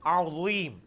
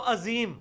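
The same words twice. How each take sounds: First: عظیم with throaty ain and heavy ظ; thick ظ after a throaty ع in عظیم; correct Arabic عظیم. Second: عظیم with plain vowel and z, no ain; عظیم without throat sound or heavy ظ; mistaken everyday reading. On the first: Shown as a demonstration. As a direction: model عظیم carefully, ع from mid-throat. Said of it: "آپ یہ سیکھیں گے تو آئے گا". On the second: Retold or imitated. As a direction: imitate a student's flat Urdu-style عظیم. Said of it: "نہ آئین پڑھ دیو".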